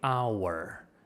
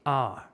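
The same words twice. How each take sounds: First: The word is said carefully in its full form. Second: The word is said quickly in a shortened form. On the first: This is the careful, slow way of saying it. "they don't say our" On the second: This is how people say it in fast natural speech. "When we speak fast, when people uh, speak naturally ... they say our"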